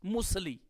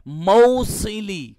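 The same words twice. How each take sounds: First: موصلی said as musli, the middle vowel swallowed; wrong everyday version of موصلی; common wrong reading. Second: موصلی stretched very slowly and loudly as mau-si-li; louder, slow correct model of موصلی; correct pronunciation. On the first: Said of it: "عمومی طور پر لوگ موصلی پڑھتے ہیں". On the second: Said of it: "میم کا فتحہ اور واو کا جزم ہے". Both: Shown as a demonstration.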